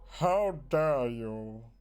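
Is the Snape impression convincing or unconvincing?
convincing. A stronger, more convincing imitation of Snape's voice.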